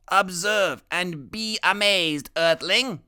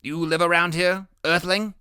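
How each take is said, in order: First: Higher, slow and louder, falling on Earthling; grand announcement. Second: Higher and louder, Earthling rising; curious question. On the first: Boy genius shows off his bird, grandly proclaiming. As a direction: proclaim it like a showman alien. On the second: Boy genius asks new friend where he lives, rising. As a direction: ask like a friendly alien visitor. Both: Acted.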